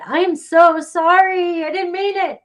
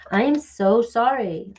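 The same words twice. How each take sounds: First: Dramatic apology. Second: Said in the usual way. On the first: Shown as a demonstration. Reader showing how she would dramatically say sorry, high and loud. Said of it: "That's the way I would say it". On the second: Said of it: "I love when I do that".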